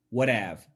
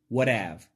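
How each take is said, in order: First: The T in what sounds like a D. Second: The same.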